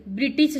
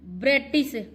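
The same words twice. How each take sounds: First: ब्रिटिश as bri-tis; short i in both syllables of ब्रिटिश; correct form. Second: ब्रिटिश as bre-tis, high; e in the first syllable of ब्रिटिश; wrong form. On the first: (सही उच्चारण, ब्रिटिश) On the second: (गलत उच्चारण, ब्रेटिश) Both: Shown as a demonstration. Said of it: "ब्रिटिश शुद्ध शब्द है".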